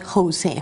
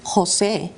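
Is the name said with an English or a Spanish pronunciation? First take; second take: English; Spanish. First: The name has softer English sounds. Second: The name has strong Spanish sounds. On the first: The speaker calls it wrong. "and not Jose" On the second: The speaker calls it right. "It is Jose"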